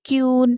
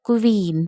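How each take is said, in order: First: It begins with a 'kyu' sound. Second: It begins with a 'kw' sound. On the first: The speaker calls it wrong. "പക്ഷെ ശരിക്കും ക്യൂൻ അങ്ങനെയല്ല" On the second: The speaker calls it right. "അത് ശരിക്കും ക്വീൻ എന്നാണ് കേട്ടോ"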